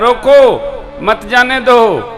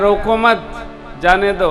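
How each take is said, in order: First: The pause comes after 'roko'. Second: The pause comes after 'mat'.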